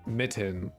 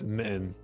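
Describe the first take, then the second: First: The middle T sound is clearly pronounced. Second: The middle T sound is dropped. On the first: "it wasn't like mitten" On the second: "we would cut the T's out"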